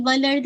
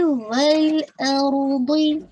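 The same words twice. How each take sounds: First: والارض run together quickly; wrong, rushed reading. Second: Sung, والارض very slow, giving each letter time; sung, linger on laam, heavy raa and daad; sung, unhurried recitation. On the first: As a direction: skim through والارض without feeling each letter. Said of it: "نہیں، والارض نہیں ہے یہ". (والارض جلدی میں، غلط) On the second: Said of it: "time دیجیے". (sung, والارض ٹھہر کر) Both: Shown as a demonstration.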